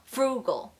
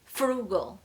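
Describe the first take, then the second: No difference in how they are said.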